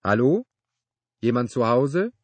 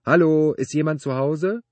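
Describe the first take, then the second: First: Loud, raised call from outside; brittle-voiced call. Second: High, loud sustained call. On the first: Neighbor calling from outside the workshop, brittle-voiced shout. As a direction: call out with a questioning lift. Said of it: "eine brüchige Stimme rief von draußen". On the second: Man standing among car parts, calling out loudly. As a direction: holler it into the workshop, pitch well up. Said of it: "rief er". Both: A narrator's reading.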